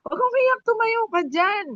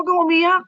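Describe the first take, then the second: First: Much higher pitch, pleading with her to stand up; very high coaxing voice. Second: Higher and louder, urging her to stop crying; coaxing "don't cry". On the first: Shown as a demonstration. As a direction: pitch way up, like coaxing a crying woman off the floor. (napakataas na boses, nakikiusap na tumayo siya) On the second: Retold or imitated. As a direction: raise your voice a bit to coax "Huwag kang umiyak". (mas mataas na boses, pinapatahan) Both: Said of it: "Yung ganun yung boses ko ba".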